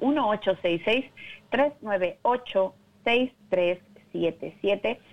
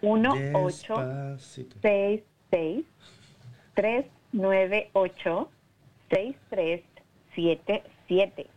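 First: The number is said fast. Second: The number is said slowly.

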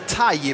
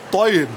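First: The t is a plain, light sound. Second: The t is a thick, emphatic sound. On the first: The speaker calls it wrong. "bra heter inte Taib" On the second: The speaker calls it right. "med ett tjockt emfatisk T"

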